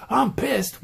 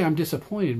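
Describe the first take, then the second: First: A higher, mock-angry teen outburst. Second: Said in the usual way. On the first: Shown as a demonstration. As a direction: spit it out like a sulky teen. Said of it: "But if you go". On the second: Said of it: "If you say".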